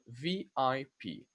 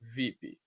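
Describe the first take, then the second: First: Each letter is said separately. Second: It is said as a single word. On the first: "You pronounce it letter by letter, one at a time" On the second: "as a word"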